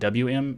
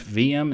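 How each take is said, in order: First: The W is said as English double-u. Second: The W is said like the letter V. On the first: It follows the English way of saying it. The speaker calls it wrong. "not W M" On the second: It follows the German way of saying it. The speaker calls it right. "I say Herbsalute V M"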